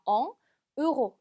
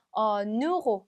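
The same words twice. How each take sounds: First: "엉, 으로" as two words broken apart; without liaison. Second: "어, 누로" linked as one word, n carried over; French liaison. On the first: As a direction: stop after "엉", then start "으로" on a vowel. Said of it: "이렇게 읽는 게 아니라". ("엉, 으로"를 연음 없이 끊어서) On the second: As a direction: carry the n of en onto euro in "어, 누로". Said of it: "마치 한 단어처럼 N이 뒤로 붙으면서". ("어, 누로"를 한 단어처럼 연음해서) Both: Shown as a demonstration.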